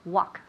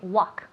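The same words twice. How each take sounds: No difference in how they are said.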